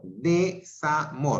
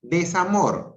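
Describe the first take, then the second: First: Desamor said slowly as de-sa-mor; slow syllables. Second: Said in the usual way. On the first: Shown as a demonstration. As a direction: split Desamor into de-sa-mor, not des-a-mor. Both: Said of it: "no es des".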